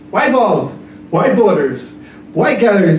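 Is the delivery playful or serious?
playful. It is read in a playful, comical tone. It is made fun for children. "in a kid's room ... it has a whole other tone"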